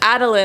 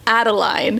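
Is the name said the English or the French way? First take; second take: French; English. First: The name is said with a French pronunciation. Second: The name is said like the English Madeline. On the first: "makes sense. French" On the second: "I was really hearing it like Madeline"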